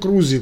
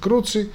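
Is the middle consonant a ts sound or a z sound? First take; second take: z; ts. First: The middle consonant is a z sound. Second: The middle consonant is a ts sound. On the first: "Крузи, конечно" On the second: "Если это итальянский круци"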